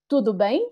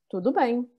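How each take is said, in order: First: The pitch rises at the end like a question. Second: The pitch falls at the end like a statement. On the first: It asks how the other person is. "Dann die Frage: Tudo bem? Nochmal" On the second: It answers that everything is fine.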